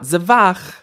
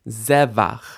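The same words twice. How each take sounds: First: The stress is on the last syllable. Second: The stress is on the first syllable. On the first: The speaker calls it wrong. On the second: The speaker calls it right. "This word has initial stress"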